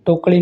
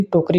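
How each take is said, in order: First: टोकरी with a flap or l for r, "tokli"; mispronunciation. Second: Said in the usual way. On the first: Shown as a demonstration. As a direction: swap the r of टोकरी for ड़. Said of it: "टोकरी नहीं". (टोकरी में 'र' की जगह 'ड़') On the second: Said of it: "टोकरी होता है".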